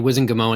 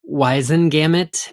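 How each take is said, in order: First: The final T sound is left off. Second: The final T sound is clearly pronounced. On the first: This is the habitual form the speaker prefers. "but I will say Wizengamot until the day I die" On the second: This is the form the original name supports. "It should be Wizengamot because it was Whitengamot"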